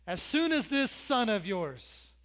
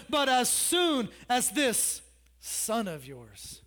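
First: Slow, "soon" stretched on "this son of yours"; slow, scornful "this son of yours"; slow emphatic repeat. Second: Slow, "soon" drawn out, "this son of yours" pointed; slow, biting "this son of yours"; stress on this son of yours. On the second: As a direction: lean hard on "this son of yours". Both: Acted.

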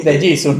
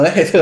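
First: Jesus said the English way, hee-SOO with no final accent. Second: Jesús said the Spanish way, heh-SOOS, stress on the last syllable; de Jesús in plain Spanish, jeh-SOOS. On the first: Correcting a friend, he says De Jesus the English way. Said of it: "no de Jesús, de Jesus". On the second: Rejecting the Spanish form, he says de Jesús normally. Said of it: "no de Jesús". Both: Shown as a demonstration.

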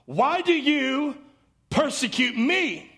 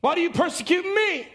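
First: Lightly voiced Jesus, slow and pleading; a hint of Jesus calling from heaven, slowed. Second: Lightly voiced Jesus, higher and urgent; a hint of Jesus insisting from heaven, higher; raised voice of Jesus. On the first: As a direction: draw each word out gently, slowly. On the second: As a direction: press the question, pitched higher. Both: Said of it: "he heard a voice say to him".

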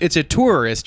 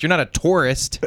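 First: "tourist" said TOOR-ist, pitched higher; oo-sounded tourist. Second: "tourist" said TOR-ist; tourist like torist. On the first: Arguing the correct pronunciation, "tourist" with oo. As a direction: say "tourist" with a clear oo vowel. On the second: Showing the others' wrong version, "tourist" as TOR-ist. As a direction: say "tourist" as if it began with tore. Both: Shown as a demonstration.

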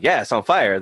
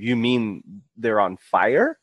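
First: Plain statement falling on "fire"; matter-of-fact answer. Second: Slow, disbelieving question rising on "fire"; baffled question. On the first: Explaining fire season to foreigners, matter-of-fact falling "fire". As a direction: confirm it, dropping "fire" at the end. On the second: Foreigners baffled by California fire season, slow disbelieving question. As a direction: draw it out, lifting "fire" as a question. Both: Retold or imitated.

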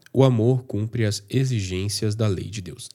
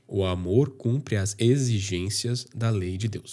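First: Said in the usual way. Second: Slow, careful articulation of every syllable in "exigências"; slow down and pronounce "exigências" cleanly, without stumbling; pronúncia cuidadosa. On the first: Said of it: "tenho sempre que prestar atenção". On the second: Shown as a demonstration. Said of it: "para e pronuncia corretamente". (dicção lenta e cuidadosa em "exigências")

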